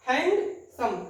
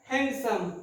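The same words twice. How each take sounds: First: handsome split into hand, pause, सम; syllable split. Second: Said in the usual way. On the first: Shown as a demonstration. Teacher dividing the word for students, handsome in two beats. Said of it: "the two syllable". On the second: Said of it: "इसका है एक method और".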